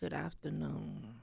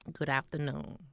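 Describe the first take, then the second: First: The greeting sounds glum and uninterested. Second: The greeting sounds bright and cheerful. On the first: The speaker did not care about greeting anyone. "I said" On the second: This is a proper, respectful greeting. "But I didn't say it that way"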